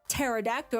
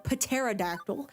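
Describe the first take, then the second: First: The first P is silent. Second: The first P is pronounced.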